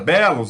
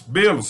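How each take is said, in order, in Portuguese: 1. A vogal tônica é aberta. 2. A vogal tônica é fechada.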